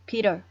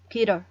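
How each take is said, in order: First: The middle t is a quick flap, like d. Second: The middle t is a quick flap, like d.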